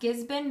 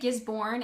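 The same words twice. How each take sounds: First: The R sound is mostly dropped. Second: The R sound is clearly pronounced. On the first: The speaker calls it right. "They don't really uh, pronunciate the R very much" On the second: The speaker calls it wrong. "which is really bad because that's not how you say it"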